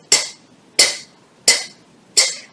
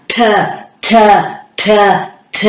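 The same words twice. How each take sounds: First: T said as a tiny clipped puff with no vowel; T cut off short and crisp, just air; T as a quick breathy tap; short t sound. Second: T said long like tuh, not clipped; T dragged out into tuh; wrong t sound. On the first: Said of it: "Short sound like this". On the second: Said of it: "It's not this sound". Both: Shown as a demonstration.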